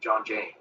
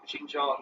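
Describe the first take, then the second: First: The first syllable sounds like 'john'. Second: The first syllable sounds like 'shin'. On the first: The speaker calls it wrong. "He kept calling it John G- John Jang" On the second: The speaker calls it right. "At least she didn't uh, mispronounce Xinjiang"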